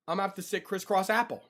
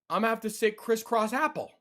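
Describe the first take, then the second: No difference in how they are said.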